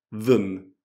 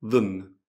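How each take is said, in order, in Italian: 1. La vocale è un suono breve e ridotto. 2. La vocale è un suono breve e ridotto.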